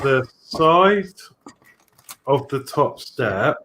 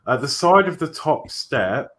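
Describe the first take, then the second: First: It is read very slowly. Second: It is read very quickly.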